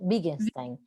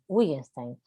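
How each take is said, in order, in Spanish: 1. El primer sonido es como V o B. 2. El primer sonido es la W del inglés. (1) "como es alemán, la W se pronuncia como B" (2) "si fuera inglés, es- diría Wittgenstein"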